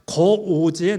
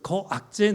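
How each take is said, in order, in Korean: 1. 중간 음절은 'o'로 발음돼요. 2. 중간 음절은 'ak'으로 발음돼요. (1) "거오재, 노오재였어요" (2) "저는 읽기부터 잘못 읽고 있었더라고요"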